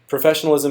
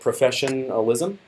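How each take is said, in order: First: The word is said whole, in the usual way. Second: The word is split, setting apart 'profession'. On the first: Behaving in a polished, proper way. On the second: Doing what the profession's best practices require.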